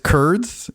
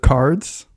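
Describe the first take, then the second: First: The vowel sounds like 'er'. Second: The vowel sounds like 'ar'.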